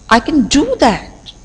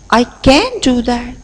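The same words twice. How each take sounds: First: The stress falls on the word do. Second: The stress falls on the word can. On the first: "If I lay stress on the third word, that is do" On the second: "If I lay stress on the second word, can"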